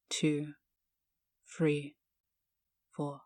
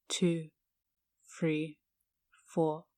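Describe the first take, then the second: No difference in how they are said.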